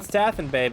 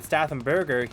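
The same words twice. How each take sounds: First: Stathenbay, ending on a clipped bay; wrong name. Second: Stathenberger, ending on a full berger; correct name. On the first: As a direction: say Stathenbay, not berger. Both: Shown as a demonstration. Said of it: "Not Stathenbay, but Stathenberger".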